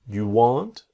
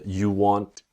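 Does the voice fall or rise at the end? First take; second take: rise; fall. First: The voice rises at the end, like a question. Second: The voice falls at the end, like a statement.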